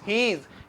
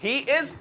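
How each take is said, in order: First: The two words are joined into one syllable. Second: Both words are said fully and separately. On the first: The speaker calls it right. "ही इज को मिला के क्या बोलते हैं?" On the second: The speaker calls it wrong.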